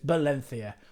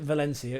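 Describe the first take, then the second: First: The word begins with a B sound. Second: The word begins with a V sound. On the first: The speaker calls it right. "it's Valencia" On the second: The speaker calls it wrong. "you don't pronounce it Valencia"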